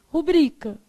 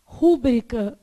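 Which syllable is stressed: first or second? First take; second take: second; first. First: The stress is on the second syllable. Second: The stress is on the first syllable. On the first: The speaker calls it right. "o correto" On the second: The speaker calls it wrong. "a gente quer falar rúbrica, mas o correto é o quê?"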